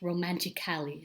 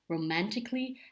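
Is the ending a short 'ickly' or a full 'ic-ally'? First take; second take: ic-ally; ickly. First: The ending 'ally' is fully pronounced. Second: The ending is reduced to a short 'ickly'. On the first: The speaker calls it wrong. "and not as romantically, so please don't do that" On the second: The speaker calls it right. "you pronounce the new adverb as romantically"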